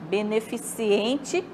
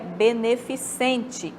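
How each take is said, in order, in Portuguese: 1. Tem um som extra 'ee' antes da terminação 'ente'. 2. Não tem um som extra 'ee' antes da terminação 'ente'. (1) "é o incorreto" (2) "o correto é beneficente"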